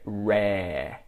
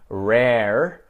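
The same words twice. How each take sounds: First: Australian accent, with no final R sound. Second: American accent, with the final R sounded. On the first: "I would say rare" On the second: "like an American"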